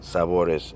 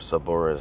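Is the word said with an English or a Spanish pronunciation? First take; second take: Spanish; English. First: The word is said with a Spanish pronunciation. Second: The word is said with an English pronunciation. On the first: The speaker calls it right. "that's how you say it" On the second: The speaker calls it wrong. "in English"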